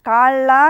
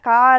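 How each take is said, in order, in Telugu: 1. మధ్య హల్లును పొడుగ్గా, ఒత్తి పలుకుతాం. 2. మధ్య హల్లు పొట్టిగా, తేలికగా ఉంది. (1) "లా అని ఒత్తి పలుకుతున్నాం" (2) "మరి కాళ అని పలుకుతున్నామా"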